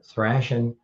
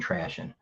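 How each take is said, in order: First: The word begins with a TH sound. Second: The word begins with a plain T sound. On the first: The speaker calls it right. "It's thrashing" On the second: The speaker calls it wrong. "Maybe I was sounding trashing"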